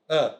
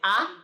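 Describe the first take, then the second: First: The vowel is a reduced 'uh' sound. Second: The vowel is a full 'a' sound. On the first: The speaker calls it right. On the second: The speaker calls it wrong.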